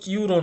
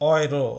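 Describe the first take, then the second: First: The word begins with a 'you' sound. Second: The word begins with an 'oy' sound. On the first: The speaker calls it wrong. "এটার উচ্চারণ কিন্তু ইউরো না" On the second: The speaker calls it right. "এটার উচ্চারণ অয়রো"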